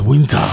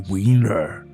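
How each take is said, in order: First: It is said in an African accent. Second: It is said in an American accent. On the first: The speaker calls it right. "in Africa, it's winter" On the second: The speaker calls it wrong. "Why do Americans say winter?"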